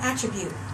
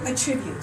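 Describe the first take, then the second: First: The stress is on the first syllable. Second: The stress is on the second syllable. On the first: It is used as a noun meaning a quality. "I'm using this word as a noun" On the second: It is used as a verb meaning to give. "I'm using this word as a verb"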